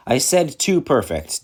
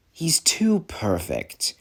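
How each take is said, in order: First: "too perfect" said firmly at normal pace; emphatic restatement of TOO PERFECT; insistent repeat. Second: TOO PERFECT drawn out slowly; a slow, deliberate "too perfect"; slow, pointed complaint. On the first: Repeats complaint to a doubting listener. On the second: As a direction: draw out "too perfect", keeping it low-key. Grudging complaint about rival engine. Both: Acted.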